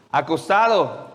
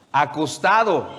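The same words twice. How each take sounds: The two takes are said the same way.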